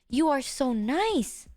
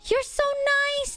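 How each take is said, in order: First: It is said softly, low and slowly. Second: It is said loudly with excited energy.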